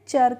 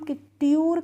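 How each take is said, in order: First: It begins with a 'ch' sound. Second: It begins with a 'ty' sound. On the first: The speaker calls it right. "चर करके करते हैं" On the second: The speaker calls it wrong. "इसका pronunciation हम ट्यूर करके नहीं करते हैं"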